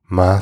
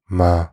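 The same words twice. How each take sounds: First: It is said with the tone meaning mom. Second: It is said with the tone meaning mom.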